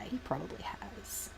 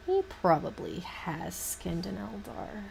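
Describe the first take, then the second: First: Voiceless whispered aside. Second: Said in the usual way. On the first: Real, not acted. Musing about Fulgrim's canon, whispering. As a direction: breathe it out with no voice. Whispered then repeated aloud.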